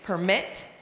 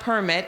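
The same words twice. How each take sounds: First: The stress is on the second syllable. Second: The stress is on the first syllable. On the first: The speaker calls it right. "it's permit. That's the one that we're talking about" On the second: The speaker calls it wrong. "it's not permit"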